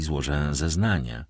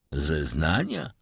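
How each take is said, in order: First: Said in the usual way. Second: "Zeznania" drawn out slowly as a wary query; slow, questioning echo of "Zeznania". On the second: A narrator's reading. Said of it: "powtórzył Villefort".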